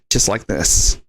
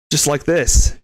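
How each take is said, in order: First: Dropped low, put-on tough-guy voice; worst Liam Neeson impression. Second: Said in the usual way. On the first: Shown as a demonstration. Showing off accents to Jimmy boy, low put-on voice. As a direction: sink into a low movie-threat voice. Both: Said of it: "I can do accents, too".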